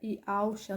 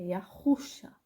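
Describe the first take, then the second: First: The middle H sound is left silent. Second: The middle H is pronounced with a rough R-like sound. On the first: The speaker calls it wrong. "normalmente as pessoas emudecem esse H e fica Iauxa" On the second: The speaker calls it right. "esse aqui tem som de R, é Yahusha"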